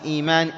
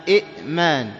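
First: إيمان with a smooth long "ee" at the start; long-vowel إيمان, no catch; madd vowel. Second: إئمان with a glottal stop after a short "i"; إئمان with the second hamza clearly caught; original two-hamza form. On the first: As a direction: glide from "ee" into "maan" in إيمان. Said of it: "فأبدلت الهمزة إلى حرف مد". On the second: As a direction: break إئمان at the hamza, "i'-maan". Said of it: "وأصل إيمان إئمان". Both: Shown as a demonstration.

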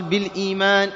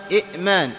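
First: بالإيمان with a long smooth "ee"; "bil-eemaan" for بالإيمان, no catch after the vowel; madd vowel. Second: إئمان with a stop after short "i"; إئمان with a clear glottal catch; original two-hamza form. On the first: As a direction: draw out the "ee" in بالإيمان. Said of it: "أبدلت الهمزة الثانية الساكنة ياء". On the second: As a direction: split إئمان at the hamza, "i'-maan". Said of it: "أصل بالإيمان إئمان". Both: Shown as a demonstration.

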